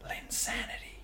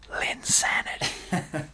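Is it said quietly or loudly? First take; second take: quietly; loudly. First: It is said at normal, quieter volume. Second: It is said louder.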